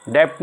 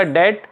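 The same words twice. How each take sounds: First: डेप्ट with a lip stop before T; B pronounced in debt. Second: डेट with no B before T; silent B in debt. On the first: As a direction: say डेप्ट, sounding the B as p. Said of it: "डेप्ट नहीं होता". (डेप्ट, ट से पहले प बोलकर) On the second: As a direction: say डेट, vowel straight into T. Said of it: "ये डेट होता है". (डेट, बिना ब के) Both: Shown as a demonstration.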